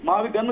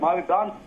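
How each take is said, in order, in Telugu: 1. చివరి అక్షరంలో హ్రస్వ అచ్చు ఉంది. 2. చివరి అక్షరంలో దీర్ఘ అచ్చు ఉంది. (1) "అది మావి గన్ కాదండి"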